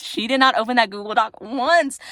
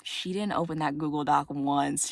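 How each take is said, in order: First: "did not" split and hit hard, higher and louder; exasperated at the editor who never opened "that Google Doc"; stress on NOT. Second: Said in the usual way. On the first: Real, not acted. Complaining to viewers about the editor, hitting "not" hard.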